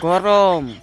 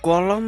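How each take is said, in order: First: The middle consonant is an r sound. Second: The middle consonant is an l sound. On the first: It is the proper word. The speaker calls it right. "আবে এটা গলম না গরম" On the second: It is baby talk. The speaker calls it wrong. "আবে এটা গলম না গরম"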